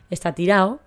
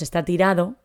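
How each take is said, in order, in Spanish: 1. El final se dice sin el sonido de la d. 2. El final se dice con una d clara. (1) "A veces nos comemos la parte final" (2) "también termina en ado"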